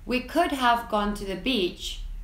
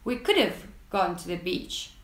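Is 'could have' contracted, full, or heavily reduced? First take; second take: full; heavily reduced. First: Could have is said as two full words. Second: Could have is reduced even further, like coulda.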